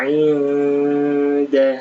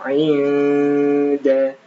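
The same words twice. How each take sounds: Both takes have the same delivery.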